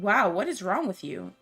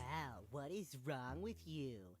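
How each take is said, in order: First: It is said in a normal voice. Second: It is said in a nasal voice.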